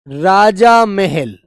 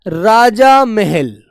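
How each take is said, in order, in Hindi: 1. पहले भाग में अंत में लंबा aa स्वर है। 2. पहले भाग में अंत में लंबा aa स्वर है।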